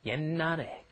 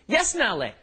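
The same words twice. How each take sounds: First: The final consonant is held back, heard as n. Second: An audible s-like sound is released before the n. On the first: The speaker calls it right. "swallowed, held back, glottalized... just pronouncing an N" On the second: The speaker calls it wrong. "that's not how it's pronounced"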